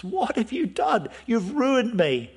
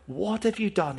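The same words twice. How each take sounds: First: Higher, pained cry of a father; a father cries out in horror at what his sons did; appalled outcry. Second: Said in the usual way. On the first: Retold or imitated. Jacob cries out to his sons, appalled and higher. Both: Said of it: "is absolutely appalled".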